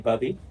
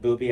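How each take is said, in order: First: The first vowel is a short uh sound. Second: The first vowel is a long oo sound. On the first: The speaker says it this way. "I say bubby" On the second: Other people say it this way. "I've heard other people pronounce it booby"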